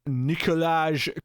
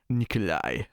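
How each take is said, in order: First: The name ends with a hard J sound. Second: The name ends with a soft I-like glide. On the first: The speaker calls it wrong. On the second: The speaker calls it right.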